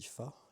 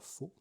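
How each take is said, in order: First: The word is said with a short open vowel. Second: The word is said with a closed 'o' vowel. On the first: The speaker calls it right. "je crois que ça se dit fa" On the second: The speaker calls it wrong. "et non pas faux"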